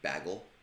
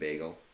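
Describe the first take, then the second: First: It is said the upstate New York way. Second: It is said the speaker's own way. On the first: This is how people in another region say it. The speaker calls it wrong. "in upstate New York they say bagel" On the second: This is how it should be said. The speaker calls it right. "It's a friggin' bagel"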